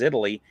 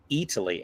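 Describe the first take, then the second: First: It is said with an American accent. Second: It is said with an Italian accent.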